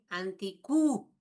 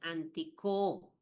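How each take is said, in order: First: The vowel after 'antic' sounds like 'u'. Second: The vowel after 'antic' sounds like 'o'. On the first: The speaker calls it wrong. "no dice anticu" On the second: The speaker calls it right. "dice antico"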